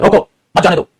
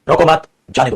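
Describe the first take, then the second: First: रोको alone, pause, then मत जाने दो together; pause after रोको. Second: रोको मत run together, pause, then जाने दो; pause after मत. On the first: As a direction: break right after रोको, keep मत with जाने दो. (रोको के बाद ठहराव, फिर मत जाने दो एक साथ) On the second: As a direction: hold the break until after मत, then जाने दो. (रोको मत एक साथ, ठहराव, फिर जाने दो) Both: Shown as a demonstration. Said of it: "वो ठहराव कॉमा होता है".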